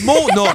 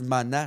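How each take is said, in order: First: The first vowel sounds like 'oh'. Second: The first vowel sounds like 'ah'. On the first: The speaker calls it right. "C'est Mona" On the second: The speaker calls it wrong. "il y a des gens qui veulent tellement faire attention à tout qu'ils disent Mana"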